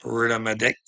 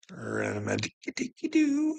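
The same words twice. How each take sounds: First: Said in the usual way. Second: Much higher, sing-song teasing with a rising end; silly sing-song. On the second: Acted. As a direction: warble it up high like a playground taunt. Silly sing-song repeat of line.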